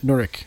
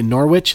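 First: The word is said with a British pronunciation. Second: The word is said with an American pronunciation. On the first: The speaker calls it right. "they would correct them" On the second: The speaker calls it wrong. "the Americans would say Norwich"

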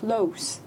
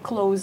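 First: It is pronounced as the adjective form. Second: It is pronounced as the verb form. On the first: It means near something. "le son qui diffère, like close. Ça devient un adjectif" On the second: It means to shut something. "comme le verbe close"

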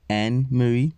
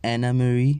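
First: The first name part has one syllable. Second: The first name part has two syllables. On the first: The speaker calls it right. "but it's Anne Marie" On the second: The speaker calls it wrong. "I mispronounced the name. I said Anna Marie"

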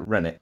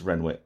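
First: The name is said without a w sound. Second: The name is said with a w sound. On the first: The speaker calls it wrong. "some people like to pronounce it Rennick" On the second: The speaker calls it right. "but it is Renwick"

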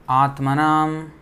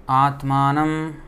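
The two takes are said the same way.

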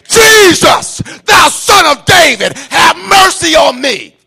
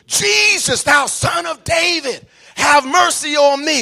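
First: It is said at a louder level. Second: It is said at a quieter level.

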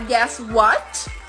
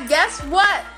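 First: The final T of 'what' is clearly released. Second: The final T of 'what' is held back. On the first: "você pode terminar com um T, o som de T... Geralmente essa é a pronúncia britânica" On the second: "sem realmente pronunciar o T. Fica no meio do caminho"

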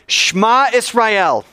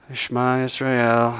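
First: It is said loudly, with strong, lively energy. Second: It is said flatly, with low, tired energy. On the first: The speaker is wholeheartedly committed. "Do you want to say it with some gusto?" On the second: The speaker is weary and half-hearted. "So you can say it like this"

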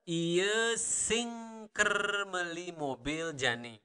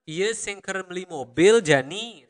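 First: It is said slowly. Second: It is said at normal speed.

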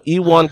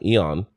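First: The name is said with a W sound. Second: The name is said without a W sound. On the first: The speaker calls it right. "So somewhere there's a W sound" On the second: The speaker calls it wrong. "we've been calling him Eon"

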